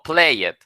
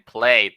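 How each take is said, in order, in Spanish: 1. La palabra 'played' se dice con dos sílabas. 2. La palabra 'played' se dice con una sílaba. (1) "No play it. Ahí no dice play it" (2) "Bien, played"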